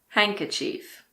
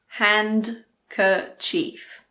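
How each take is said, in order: First: The D sound is silent. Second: The D sound is clearly pronounced. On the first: The speaker calls it right. "It's handkerchief" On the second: The speaker calls it wrong. "It's not hand-kerchief"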